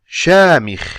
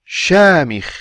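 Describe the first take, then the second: The two takes are said the same way.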